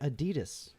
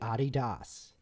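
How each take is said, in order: First: It is said in the common American way. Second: It is said in the original founder's way. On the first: The speaker calls it wrong. "Americans pronounce the uh, apparel and shoe brand Adidas wrong" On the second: The speaker calls it right. "it's supposed to be Adidas"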